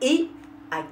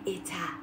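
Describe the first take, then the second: First: The words are kept apart without a t sound. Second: A t sound links the two words together. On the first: The speaker calls it right. "jamais on ne fait jamais la liaison avec ce mot" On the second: The speaker calls it wrong. "non non jamais jamais c'est un grand cafouillage"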